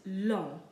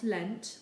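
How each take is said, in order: First: LONG with a nasal vowel, no final consonant; silent ending. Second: LENT with N and T sounded; wrongly sounded ending. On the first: Teacher showing the second word, silent ending. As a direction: say LONG as French "lon", ending left open. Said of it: "we don't pronounce the". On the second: Teacher showing the mistake to avoid, sounded ending. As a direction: say LENT as in English, final T heard. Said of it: "not lent". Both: Shown as a demonstration.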